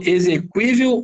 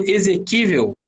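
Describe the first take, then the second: First: "exequível" with the u sounded; pronunciation option demo. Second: "exequível" with a silent u; plain k sound in "exequível"; pronunciation option demo. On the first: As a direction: say "exequível" as "eze-kwí-vel". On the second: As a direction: say "exequível" as "eze-kí-vel". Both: Shown as a demonstration. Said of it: "ou eu falo exequível".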